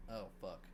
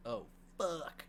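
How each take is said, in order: First: "Oh, fuck" lower and much softer, fading out; a mild, understated dying villain's last words; dying groan. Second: "Oh, fuck" a bit higher, caught off guard; a touch of shock as she realizes what's happening; dawning realization. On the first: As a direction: breathe out "Oh, fuck" like a beaten man. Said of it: "and he's like". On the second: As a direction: let "Oh, fuck" land as a sudden realization, lightly acted. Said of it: "So she's like". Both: Retold or imitated.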